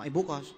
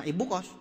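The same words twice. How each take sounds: First: "ibu kos" very low, falling at the end; falling intonation. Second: "ibu kos" low with a lift at the end; rising intonation. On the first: Speaker showing audience another version, "ibu kos" falling. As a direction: drop "ibu kos" low and let it fall. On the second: Speaker showing audience one version, "ibu kos" rising. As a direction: let "ibu kos" rise from a low start. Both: Shown as a demonstration. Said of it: "Beda kan?".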